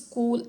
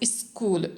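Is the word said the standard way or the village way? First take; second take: standard; village. First: The word is said the standard way. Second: The word is said the village way. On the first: The speaker calls it right. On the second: The speaker calls it wrong.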